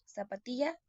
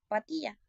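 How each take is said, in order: First: The word begins with its first syllable intact. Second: The opening sounds of the word are left out. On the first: This is the target word. The speaker calls it right. "en lugar de decir zapatilla" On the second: This shows an omission error. The speaker calls it wrong. "dicen patilla"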